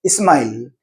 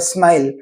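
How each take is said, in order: First: "smile" with i before the sm, ismile; added opening vowel on "smile"; Hindi-speaker e prefix. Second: Said in the usual way. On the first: Shown as a demonstration. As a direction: say "smile" as is-mile. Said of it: "e, in front of it". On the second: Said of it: "They don't have smile".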